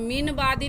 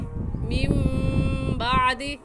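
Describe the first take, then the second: First: A plain n sound comes before the b. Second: A nasal m sound comes before the b. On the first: The speaker calls it wrong. "मीन बादी नहीं कहेंगे" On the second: The speaker calls it right. "बल्कि मीम बादी"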